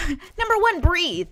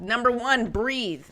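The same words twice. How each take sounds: First: High, loud, half-laughing exclamation; emphatic repeat. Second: Said in the usual way. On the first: Real, not acted. Host repeats step one to viewers, high and emphatic. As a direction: burst out with it after a quick laugh.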